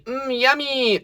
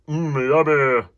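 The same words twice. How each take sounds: First: The voice sounds bright and forward. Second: The voice sounds dark and hollow.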